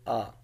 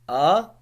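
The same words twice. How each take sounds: First: The pitch is short and light, without contour. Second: The pitch rises from middle to high. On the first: "the neutral tone, which is like there's no tone of it" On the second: "moving upward like uplift"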